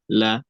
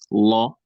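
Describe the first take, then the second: First: The L sound is light and clear. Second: The L sound is heavy and dark. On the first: "sometimes pronounced lightly" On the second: "sometimes pronounced heavily"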